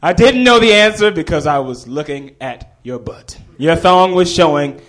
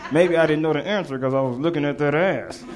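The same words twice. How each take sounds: First: Loud, bold public declaration; full gumption. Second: Offhand remark to a friend, not projected; cheeky aside. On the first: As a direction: stand up and announce it brazenly. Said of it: "stood up with all the gumption". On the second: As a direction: toss it off as a sly aside. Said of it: "Like that". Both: Retold or imitated.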